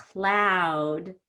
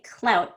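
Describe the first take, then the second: First: CLOUD with a wide, stretched OU; bigger long vowel. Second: CLOUT with a small, quick OU; don't open the mouth much on CLOUT; smaller short vowel. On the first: Teacher shows change in vowel size, CLOUD stretched wide. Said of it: "that's pretty different". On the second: Teacher shows change in vowel size, CLOUT kept small. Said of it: "I don't open my mouth too much". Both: Shown as a demonstration.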